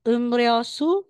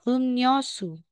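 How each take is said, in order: First: The second syllable starts with an r sound. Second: The second syllable starts with an n sound. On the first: The speaker calls it wrong. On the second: The speaker calls it right.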